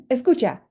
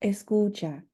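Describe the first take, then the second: First: Escucha louder and higher, a sharp order; harsh command. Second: Gentle escucha that draws a student in. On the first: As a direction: bark it like a stern order. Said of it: "rather than". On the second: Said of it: "I would recommend saying something more like". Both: Shown as a demonstration.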